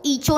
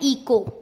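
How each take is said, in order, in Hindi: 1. बीच का व्यंजन 'ch' ध्वनि है। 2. बीच का व्यंजन 'k' ध्वनि है। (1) "इसको ईचो नहीं पढ़ेंगे" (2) "इसको क्या पढ़ना है? इको"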